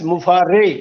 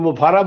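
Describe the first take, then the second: First: The name is said with three syllables, ending in 'ay'. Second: The name is said with three syllables, ending in 'ah'. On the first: The speaker calls it right. "But actual name is एस मुफारे" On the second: The speaker calls it wrong. "कोई मुफारा बोलते हैं"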